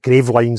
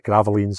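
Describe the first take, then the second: First: The name is read just as it is spelled. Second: The name is said differently from its spelling. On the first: The speaker calls it wrong. "is how it spells" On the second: The speaker calls it right. "I believe, is how you, you say it"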